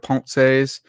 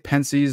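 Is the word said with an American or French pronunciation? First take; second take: French; American. First: It is said with a French pronunciation. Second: It is said with an American pronunciation. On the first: The speaker calls it right. "instead of Pensées" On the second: The speaker calls it wrong. "I pronounce things like an American. I say Pensées"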